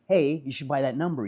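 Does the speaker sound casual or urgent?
urgent. It is said in an urgent, insistent way. The speaker is convinced and eager to share it. The speaker calls it right. "You'd be"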